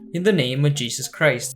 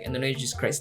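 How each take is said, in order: First: It is said at a normal pace. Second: It is said very quickly, rushed.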